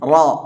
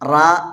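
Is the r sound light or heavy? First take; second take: heavy; light. First: The r is heavy with a rounded vowel. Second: The r is light with an open a vowel. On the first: The speaker calls it right. "റാ തഫ്ഹീമാണ്" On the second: The speaker calls it wrong. "വായ മൂടിക്കെട്ടി റാ എന്ന് പറയാതെ"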